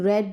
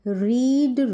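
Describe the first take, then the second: First: The vowel is a short 'e' sound. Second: The vowel is a long 'ee' sound. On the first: It is the past-tense form. "Verb की second form रीड को हम रेड pronounce करते हैं" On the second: It is the present-tense form. "रीड की verb को समझेंगे पहले"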